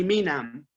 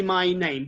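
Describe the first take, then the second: First: "My name" as low-pitched "mee nam"; wrong pronunciation. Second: "my name" as "migh naym", full diphthongs; correct pronunciation. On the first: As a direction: mimic learners saying "My name" as "mee nam". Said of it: "they say". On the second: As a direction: say "my name" with vowels as in "eye" and "day". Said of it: "Many people don't say my name". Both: Shown as a demonstration.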